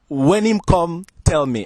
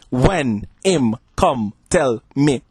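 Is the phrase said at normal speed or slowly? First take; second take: normal; slowly. First: The phrase is said at normal speed. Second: The phrase is said more slowly.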